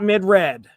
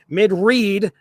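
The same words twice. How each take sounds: First: The word read rhymes with bed. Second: The word read rhymes with need. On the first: The speaker calls it wrong. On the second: The speaker calls it right. "change this to R E E D so it actually pronounces it correctly"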